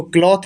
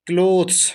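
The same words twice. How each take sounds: First: "क्लॉथ" with an open aw vowel and a th ending; wrong pronunciation. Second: "क्लोथ्स" with a long closed o and final s; correct pronunciation. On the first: Teacher shows learners the misreading not to use, "क्लॉथ" with an open o. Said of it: "इसको क्लॉथ नहीं पढ़ते हैं". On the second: Teacher models the word for learners, "क्लोथ्स" with a long oh and final s. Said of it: "इसका उच्चारण होता है". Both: Shown as a demonstration.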